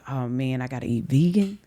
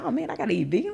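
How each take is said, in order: First: It sounds reluctant, like facing a chore. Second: It sounds eager and excited about the food. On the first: Eating vegan is a burden. The speaker calls it wrong. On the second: Eating vegan is a fun opportunity. The speaker calls it right.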